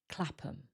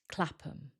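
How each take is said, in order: First: The last syllable is a weak um. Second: The same.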